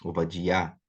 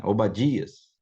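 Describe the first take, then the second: First: Obadiá ending on a stressed iá, with no s; Hebrew pronunciation. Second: Said in the usual way. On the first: Shown as a demonstration. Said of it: "no hebraico". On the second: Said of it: "no português, normalmente".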